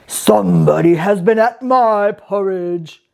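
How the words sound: It is said in a rough, gruff voice.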